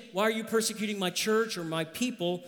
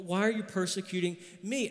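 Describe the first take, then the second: First: Said in the usual way. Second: Me said with a light rise at the end; stress on me. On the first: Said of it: "Not merely saying". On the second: Shown as a demonstration. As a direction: lean on me, not the church.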